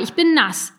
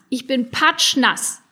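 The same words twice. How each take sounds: First: Loud, high, indignant complaint. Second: "patschnass" drawn out slowly and hit hard; slow, stressed "patschnass", falling; emphatic. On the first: Dripping goblin complains to the boys, indignant. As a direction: stress on "bin", falling hard. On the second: Dripping goblin stresses how wet he is, slow and emphatic. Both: Acted.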